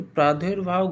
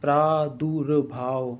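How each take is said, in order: First: प्रादुर्भाव said wrongly as "praa-dher-bhaav"; mispronounced word. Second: प्रादुर्भाव very slowly, "praa-dur-bhaav"; correct pronunciation. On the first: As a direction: say प्रादुर्भाव with "e" in place of the u. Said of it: "गलत लिखा है". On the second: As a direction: sound out प्रादुर्भाव syllable by syllable with short u. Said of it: "होना कैसे चाहिए". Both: Shown as a demonstration.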